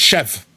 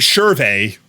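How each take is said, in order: First: The word is said without an R sound. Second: The word is said with an R sound. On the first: It is said the accepted way. The speaker calls it right. "Nope, it's chef" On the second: It is read as the letters suggest. The speaker calls it wrong. "That should be Cherve"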